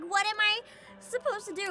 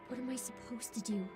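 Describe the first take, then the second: First: It sounds genuinely frustrated and emotional. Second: It sounds dry and drained of emotion.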